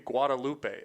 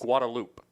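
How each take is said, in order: First: The name is said with Spanish pronunciation. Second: The name is said with anglicized local pronunciation. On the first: The speaker calls it right. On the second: The speaker calls it wrong. "That's how they pronounce it here"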